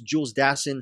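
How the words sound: The name is said with an American pronunciation. This is how Americans say it. "In America, stateside, it's"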